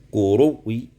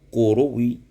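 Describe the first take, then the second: Both takes have the same delivery.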